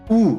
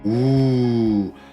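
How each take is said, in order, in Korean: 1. 소리가 짧고 끊어져요. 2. 소리를 길게 유지하고 늘여요. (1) "이게 아니라" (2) "음소에서 소리는 길게 내야 돼요"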